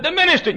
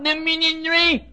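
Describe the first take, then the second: First: Said in the usual way. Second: High slow ministry as minyinry; mock tongue-tied. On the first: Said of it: "I said". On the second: Preacher mimicking Joe's garbled ministry, high slow. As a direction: mangle ministry like Joe. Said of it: "can't even talk plainly".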